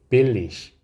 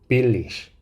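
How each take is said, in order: Both takes have the same delivery.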